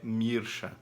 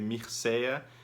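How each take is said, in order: First: The name is said with the Romanian pronunciation. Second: The name is said with the usual Brazilian pronunciation. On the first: This is how it is said in the name's original language. "a pronúncia em romeno, que é o idioma original dele e do nome, é Mirsha" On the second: This is how it is commonly said in Brazil. "geralmente no Brasil a gente usa essa pronúncia"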